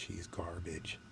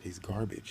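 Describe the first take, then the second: First: Unvoiced contemptuous whisper; hushed repeat, He's garbage under breath; whispered dismissal. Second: Said in the usual way. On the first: Real, not acted. Dismissing rival, said twice.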